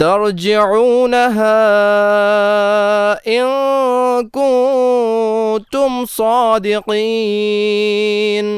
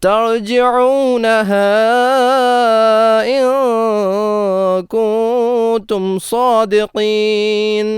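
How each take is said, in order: Both takes have the same delivery.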